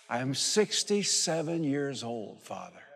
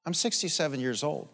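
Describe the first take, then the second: First: Drawn-out, solemn testimony; slow preaching emphasis. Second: Said in the usual way. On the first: Real, not acted. Preacher testifying his age to the Father, slow and solemn. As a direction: lean on every word like an oath.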